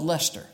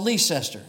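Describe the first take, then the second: First: The name is said the short, local way. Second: The name is said the longer, newcomer way. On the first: The speaker has lived there a long time. "If you've been there any length of time, it's called Lester" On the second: The speaker is new to the place. "If you're a newcomer, it's called Leicester"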